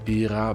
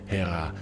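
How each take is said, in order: First: The name starts with a vowel sound. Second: The name starts with an H sound. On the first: This is the precise Greek form. "to be precise ... Hera is Ira" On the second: This is the simplified English form. "let's keep it simple with the pronunciations and call him Hera"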